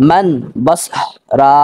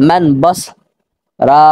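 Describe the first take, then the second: No difference in how they are said.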